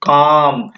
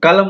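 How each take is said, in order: First: No L sound is heard before the M. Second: An L sound is heard before the M. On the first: The speaker calls it right. "क्या बोलेंगे, काम" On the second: The speaker calls it wrong. "कलम नहीं बोल सकते हैं"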